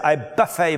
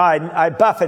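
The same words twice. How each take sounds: First: Buffet is said like the word for a meal. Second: Buffet is said like the word for a blow. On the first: The body is fed a lot of food. The speaker calls it wrong. "they read it mispronouncing the word" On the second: The body is beaten into shape. The speaker calls it right. "I knock it into shape"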